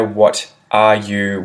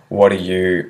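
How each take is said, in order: First: Each word is said fully and separately. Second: The words are reduced and blended together.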